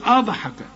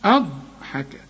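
First: The ض sound is released with a bouncing echo. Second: The ض sound is held steady without any bounce. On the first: The speaker calls it wrong. "تقلقل الضاد، ... ما تقولش أضحك" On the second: The speaker calls it right. "شوف"

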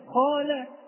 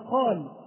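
First: The final consonant is followed by a vowel. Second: The word stops on the final consonant. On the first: "هو ليس ساكنا أصلا" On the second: "إن وقفنا عليها وقلنا قال"

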